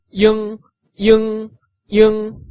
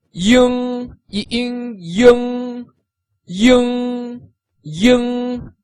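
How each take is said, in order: First: Ying kept high and level but brief; quick, high, level ying; short flat ying; short first tone ying. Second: Ying held high and perfectly level; high, flat, sustained ying; first tone ying. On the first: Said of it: "in the shorter version". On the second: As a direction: keep ying high and level all through. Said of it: "the first tone that is going from totally flat". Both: Shown as a demonstration.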